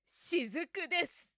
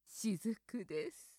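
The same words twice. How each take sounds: First: It is said in a strong, powerful voice. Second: It is said in a sexy, seductive voice. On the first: "怪力女で" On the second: "セクシーに"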